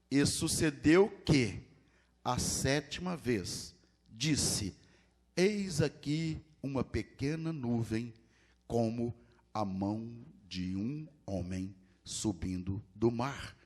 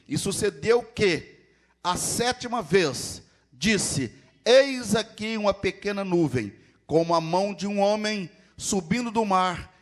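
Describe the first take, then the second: First: The passage is read slowly. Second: The passage is read fast.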